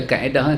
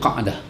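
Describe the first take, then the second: First: It is said like the Malay word kaedah. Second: It is said with an Arabic q and glottal catch. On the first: The speaker calls it wrong. "kita baca kaedah" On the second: The speaker calls it right. "bacaannya betul Zul Qa'dah"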